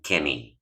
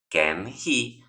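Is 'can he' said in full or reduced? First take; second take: reduced; full. First: The words are run together with the h dropped. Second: Both words are said fully and separately. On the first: "simplemente dicen can he" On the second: "en lugar de pronunciar can he"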